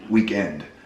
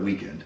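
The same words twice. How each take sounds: First: The stress is on the last syllable. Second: The stress is on the first syllable. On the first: "how she would say a thing like weekend" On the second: "instead of weekend"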